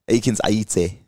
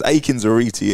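First: The name is said boldly with an African pronunciation. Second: The name is said in a plain English-style way. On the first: "if you really want to say it with chest, it's actually Aikines-Aryeetey. That's the African" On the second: "You can never say it with chest"

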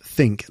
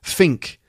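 First: The th sound is kept as th. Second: The th sound is replaced by an F. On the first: "instead of" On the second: "I'm going to say these in with F"

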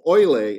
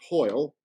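First: The name is said with Spanish pronunciation. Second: The name is said with English pronunciation. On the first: "is the Spanish pronunciation" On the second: "we would pronounce it Hoyle"

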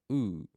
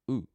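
First: The vowel is drawn out long. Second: The vowel is said short. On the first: "Then we have the long vowel sounds" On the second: "the short vowel sounds are"

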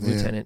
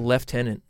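First: The first syllable sounds like loo. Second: The first syllable sounds like left. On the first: This is how the speakers themselves say it. "instead of lieutenant" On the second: This is how people in the UK say it. "They also say lieutenant"

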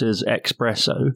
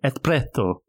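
First: It is said without any 'th' sound. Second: It is said with added 'th' sounds. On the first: "some people mispronounce espresso" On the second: "he overdoes it and puts some THs in there"

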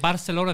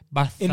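First: It is said without a lisp. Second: It is said with a Spanish lisp.

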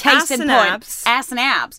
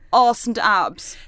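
First: It is said in an American accent. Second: It is said in an English accent. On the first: "a lot of it is best said in an American accent" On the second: "if you say ass and abs in an English accent"

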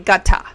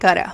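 First: It is said with a clear British T. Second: It is said with an American flapped T.

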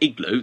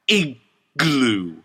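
First: The word is said in a relaxed, ordinary way. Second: The word is pushed out hard and forcefully. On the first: "normally igloo, that's fine" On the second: "listen to me try and say it hard"

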